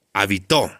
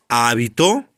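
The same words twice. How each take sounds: First: "habitó" stressed ha-bi-TÓ; stress on last syllable. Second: "Hábito" stressed HÁ-bi-to; stress on first syllable. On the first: Teacher shows pupils the second reading, "habitó" stressed on TÓ. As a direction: push the stress to the final TÓ of "habitó". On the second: Teacher contrasts two readings for pupils, "Hábito" stressed on HÁ. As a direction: put the weight on the opening HÁ of "Hábito". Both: Shown as a demonstration. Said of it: "Es la famosa tilde optativa en palabras bitónicas".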